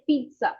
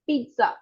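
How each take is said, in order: First: The middle consonant is a ts sound. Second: The middle consonant is a ts sound.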